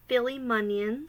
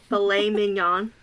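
First: It is pronounced like Philly munions. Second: It is pronounced like filet mignon. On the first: The speaker calls it wrong. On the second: The speaker calls it right.

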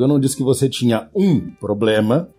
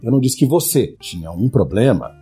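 First: The word "um" is stressed. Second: The word "você" is stressed.

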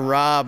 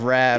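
First: The vowel sounds like the o in cob. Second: The vowel sounds like the a in cab. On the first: This is the name as it is supposed to be pronounced. The speaker calls it right. "I should be [name] instead of Rab" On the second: This is how everyone in Philadelphia always said it. The speaker calls it wrong. "They always said Rab"

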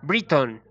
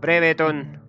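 First: The name has an English pronunciation. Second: The name has a Chilean Spanish pronunciation. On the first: The speaker calls it right. "así se pronuncia realmente" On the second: The speaker calls it wrong. "no se pronuncia como lo pronunciamos"

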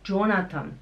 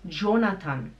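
No difference in how they are said.

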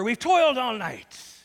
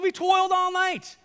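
First: The line is said in a calm, even tone. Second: The line is said in an irritated, bothered tone. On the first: The speaker calls it wrong. "No, he doesn't say it like that" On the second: The speaker calls it right. "He said"

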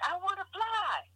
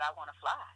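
First: It is yelled loudly and emotionally. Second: It is said at normal, quiet volume.

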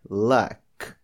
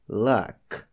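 Both takes have the same delivery.

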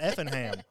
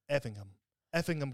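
First: The ending is a full, clear 'ham'. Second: The ending is reduced, like in Buckingham. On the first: This is how locals say it. The speaker calls it right. "this is Effingham" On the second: This is how outsiders on television said it. The speaker calls it wrong. "they were pronouncing it Effingham County"

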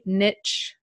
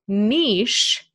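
First: It is said with a T sound. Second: It is said without a T sound. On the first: "it's pronounced niche with a T, ... in American and Canadian English" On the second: "and niche in British English"

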